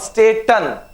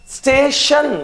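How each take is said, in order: First: The middle consonant is a plain t sound. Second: The middle consonant is an sh sound. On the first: The speaker calls it wrong. "not staten" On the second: The speaker calls it right. "We got T sounding like sh"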